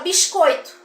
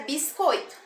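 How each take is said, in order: First: The S sounds like sh, a hushing sound. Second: The S is a light, soft hissing sound. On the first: This is how people in Rio de Janeiro say it. "O S no Rio de Janeiro ganha o som de X" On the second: This is how people in Minas Gerais say it. "eles têm um S mais leve, mais suave"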